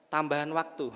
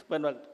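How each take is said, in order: First: Said in the usual way. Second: Laughing repeat. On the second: Shown as a demonstration. Preacher laughing as she repeats the football comparison. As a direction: repeat "Tambahan waktu" through a laugh. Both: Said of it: "Ibarat main bola ini".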